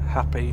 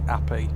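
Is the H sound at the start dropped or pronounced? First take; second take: pronounced; dropped. First: The word starts with an audible H sound. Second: The word starts without any H sound.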